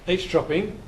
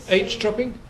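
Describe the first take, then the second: Both takes have the same delivery.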